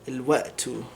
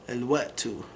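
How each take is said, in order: The two takes are said the same way.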